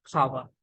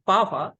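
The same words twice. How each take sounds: First: Power with a puff of air after the p; American aspirated P. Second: Power with no puff of air on the p; Indian unaspirated P. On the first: Teacher giving the right pronunciation, aspirated p in power. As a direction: say power as phower, p strongly released. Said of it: "but American accent". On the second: Teacher showing the Indian way, unaspirated p in power. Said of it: "in Indian accent". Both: Shown as a demonstration.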